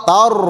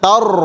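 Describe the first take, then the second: Both takes have the same delivery.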